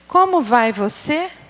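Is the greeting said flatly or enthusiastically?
flatly. It is said flatly, without enthusiasm. The speaker does not believe what they say. The speaker calls it wrong. "falar assim"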